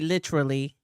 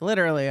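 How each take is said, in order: First: The T is clearly pronounced, English style. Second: The T is softened, not clearly pronounced.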